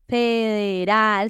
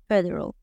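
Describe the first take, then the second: First: It has open Spanish vowels and a Spanish R. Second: It has closed English vowels and a soft R. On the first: The speaker calls it wrong. "No es federal" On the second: The speaker calls it right. "sino federal, federal, la boca más cerradita"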